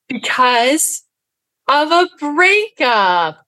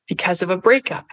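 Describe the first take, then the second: First: "because of a breakup" stretched out slowly and pitched high; amused emphasis on BREAKUP. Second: Said in the usual way. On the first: Retold or imitated. Speaker relishing the line that made her audience laugh, amused drawn-out emphasis. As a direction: draw out "breakup" high and slow, in amused disbelief.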